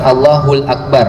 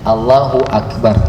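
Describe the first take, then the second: First: An 'l' sound links the two words. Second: No 'l' sound links the two words. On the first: The speaker calls it wrong. "Bukan Allahul Akbar ya" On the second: The speaker calls it right.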